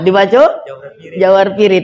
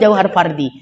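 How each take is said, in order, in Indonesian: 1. Kata kedua diucapkan pirit. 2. Kata kedua diucapkan fardi. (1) "dibaca jauhar pirit ya" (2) "yang betul jauhar fardi"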